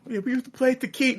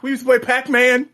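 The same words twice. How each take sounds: First: "Tekken" said as "tuh-KEEN", high mocking voice; mispronounced Tekken. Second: High, loud mocking celebrity voice. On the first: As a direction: mimic "Tekken" with the stress on the second syllable. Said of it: "you know". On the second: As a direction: ham up a simple celebrity line.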